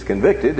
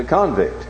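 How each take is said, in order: First: "convicted" stressed on the second syllable, VICT; verb stress. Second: "convict" stressed on the first syllable, CON; noun stress. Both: Shown as a demonstration. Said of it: "putting the emphasis on a different syllable".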